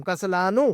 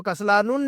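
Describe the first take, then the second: First: کسلانو ending in an open -u, "kaslaanu"; no tanween. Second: کسلانون said with an extra final n, "kaslaanun"; wrong tanween ending. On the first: Teacher corrects the reading for students, open -u ending. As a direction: end کسلانو on the vowel, without a final n. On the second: Teacher shows what we cannot say, tanween -un ending. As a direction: close کسلانون on a sounded -un. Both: Shown as a demonstration. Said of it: "تو کسلانون نہیں کہہ سکتے ہم".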